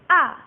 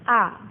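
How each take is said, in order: First: The pitch drops sharply, like an angry snap. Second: The pitch is short and light, without stress. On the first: "Yang keempat nadanya turun kayak orang marah" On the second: "yang terakhir cingseng nada ringan"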